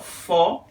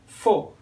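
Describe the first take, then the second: First: The vowel is open, with the mouth wider. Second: The vowel is closed, with the mouth narrower.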